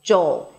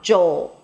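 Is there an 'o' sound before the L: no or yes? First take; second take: yes; yes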